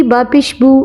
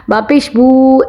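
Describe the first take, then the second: First: Final "बू" kept short; quick reading. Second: Final "बू" drawn out long; wrongly stretched. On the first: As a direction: say it promptly, without dragging "बू". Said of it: "जल्दी से". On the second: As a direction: show the mistake by holding "बू". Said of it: "ऐसे नहीं पढ़ना". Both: Shown as a demonstration.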